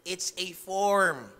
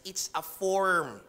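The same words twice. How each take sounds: First: "It's a form" very slow and a bit louder, "form" falling; slow louder emphasis. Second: "form" drawn out very slowly with a falling tune; slow emphasis. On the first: Preacher repeating it slower for the congregation. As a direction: press each word home the second time. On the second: Repeating the warning to the congregation, very slow. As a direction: stretch "it's a form" word by word. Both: Shown as a demonstration. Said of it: "Uulitin ko lang".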